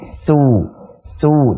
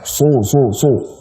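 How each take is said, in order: First: The s sound is thin and plain. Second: The s sound is heavy with rounded lips. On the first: The speaker calls it right. "tipis pakai sin" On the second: The speaker calls it wrong. "bukan monyong dulu, bukan su su su. Nanti jadi shad"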